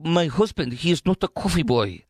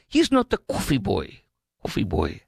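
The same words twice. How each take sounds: First: Lightly done Greek accent, mock indignant; hint of a Greek wife's accent, insisting; Greek accent imitation. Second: Greek accent imitation. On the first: Wife defends her husband in a light mock Greek accent. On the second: Wife insists on TV in a light mock Greek accent. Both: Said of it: "a Greek or foreign accent".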